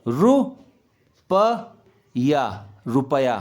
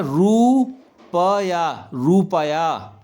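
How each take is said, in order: First: रुपया slowly in parts, short ru, lower. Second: रुपया very slow, roooo-paa-yaa; exaggerated long oo. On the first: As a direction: break रुपया into ru, pa, ya, then join it. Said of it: "तो छोटा ऊ की मात्रा". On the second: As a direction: stretch रुपया hugely, starting with a long roo. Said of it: "रुपया कोई नहीं बोलता है". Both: Shown as a demonstration.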